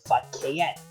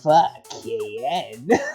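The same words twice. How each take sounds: First: It is said as a plain statement. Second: It is said in a very uncomfortable tone.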